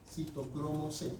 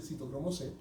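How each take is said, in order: First: "Citocromo C" drawn out slowly, softer; slow and measured on "Citocromo C"; slow, careful repetition. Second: Said in the usual way. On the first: Real, not acted. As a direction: spell out "Citocromo C" unhurriedly for students to catch. Teacher repeats term slowly for class.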